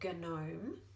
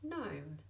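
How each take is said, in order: First: The G sound is pronounced before the N. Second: The G sound is silent before the N. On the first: The speaker calls it wrong. "we don't say gnome" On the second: The speaker calls it right. "we just say gnome"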